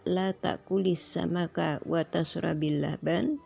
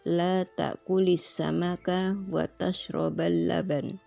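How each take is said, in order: First: The verb before laban ends in an i vowel. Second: The verb before laban ends in an a vowel. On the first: Do not eat fish and do not drink milk either. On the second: Do not eat fish while also drinking milk.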